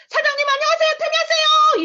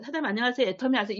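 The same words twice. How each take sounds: First: High, very loud shouted greeting; bursting through the door with a huge shout. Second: Said in the usual way. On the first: Retold or imitated. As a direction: yell it at the shop owner with full resolve. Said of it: "이 소리를 제가 했어요. 진짜 이렇게 소리를 질렀어요". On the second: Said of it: "이 소리를 한 게 아니라니까".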